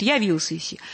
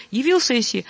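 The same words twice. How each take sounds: First: "явился" with a full ya at the start; unreduced first vowel. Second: "явился" with the first syllable cut short, nearly yi; shortened first vowel. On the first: Teacher shows what happens without reduction, full vowel. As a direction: give the "я" of "явился" its whole open length. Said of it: "иначе будет". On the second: Teacher shows choir quantitative reduction, shortened vowel. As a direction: make the "я" of "явился" brief and reduced. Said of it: "должно быть чуть-чуть короче". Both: Shown as a demonstration.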